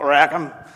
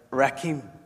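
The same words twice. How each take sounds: First: It is said with a Northern Irish pronunciation. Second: It is said with a Hebrew-like pronunciation. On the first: The speaker calls it wrong. "not Rakim. Keeps coming out that way" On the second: The speaker calls it right. "It's like Rakim"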